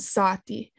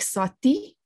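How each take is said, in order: First: "sati" with the first syllable stressed and lengthened; penultimate stress. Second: "sati" with the second syllable stressed and rising; final stress. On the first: Lecturer contrasting the stuff word with fox, penultimate stress on "sati". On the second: Lecturer showing the fox word of a minimal pair, final stress on "sati". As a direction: stress the last syllable of "sati", short first vowel. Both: Shown as a demonstration. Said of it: "surface minimal pairs".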